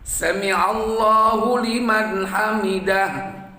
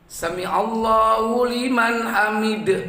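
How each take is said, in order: First: The last word ends with an audible h sound. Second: The last word ends on a bounced d sound. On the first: The speaker calls it right. "itu harus harus jelas itu" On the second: The speaker calls it wrong. "itu salah. Malah dibaca qolqolah di situ"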